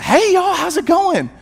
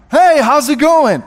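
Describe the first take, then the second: First: Very high-pitched, sing-out greeting; imitating chirpy wife. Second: Loud, high, hearty reply; imitating excited strangers. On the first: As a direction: mimic an introverted wife suddenly turned bubbly. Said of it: "she comes in, she said". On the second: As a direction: greet back as delighted strangers, full voice. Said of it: "they're very excited to see us".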